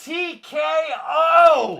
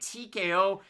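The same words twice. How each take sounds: First: It is said loudly. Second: It is said at normal volume.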